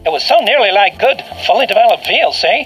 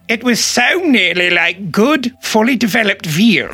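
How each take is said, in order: First: It is said in an American accent. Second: It is said in a British accent.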